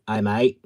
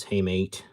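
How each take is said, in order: First: A loud, hammed-up Australian "Hi, mate"; mock Australian greeting, thrown back loud; bad Australian accent. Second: Said in the usual way. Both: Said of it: "that was a really bad Australian accent".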